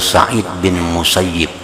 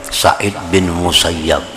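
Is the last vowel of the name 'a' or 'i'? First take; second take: i; a. First: The name's last syllable has an 'i' vowel. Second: The name's last syllable has an 'a' vowel. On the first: This is the reading the man himself preferred. The speaker calls it right. "Beliau lebih senang nah, dipanggil dengan" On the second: This is the common reading the man himself disliked. The speaker calls it wrong. "seringkali dibaca Musayyab"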